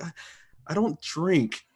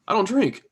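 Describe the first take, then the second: First: It is said hesitantly, full of shame. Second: It is said very quickly, offhand.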